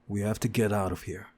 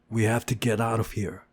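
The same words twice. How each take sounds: First: Said in the usual way. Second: Stubborn repeat, pushing on WE. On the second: Acted. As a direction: dig in and say it again. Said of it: "I repeated stubbornly".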